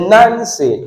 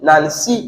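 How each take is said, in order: First: Front-stressed "Nancy"; stress on first syllable. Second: "Nancy" as nan-SEE, rising onto SEE; slow, end-stressed "Nancy"; stress on second syllable. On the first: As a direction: hit NAN in "Nancy", relax the second syllable. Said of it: "So now you say Nancy". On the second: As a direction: drag out and lift the end of "Nancy". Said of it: "not Nancy". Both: Shown as a demonstration.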